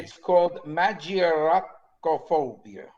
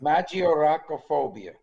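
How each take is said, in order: First: Slow, Italian-accented "magioracophobia". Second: "Magioracophobia" said with Italian vowels; Italian flourish on "Magioracophobia"; Italian accent. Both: Shown as a demonstration. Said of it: "Notice I put the Italian accent in there".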